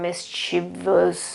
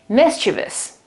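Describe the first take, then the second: First: The stress falls on a later syllable. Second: The stress falls on the first syllable. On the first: The speaker calls it wrong. "you shouldn't pronounce it like" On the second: The speaker calls it right. "The accent is on the first syllable"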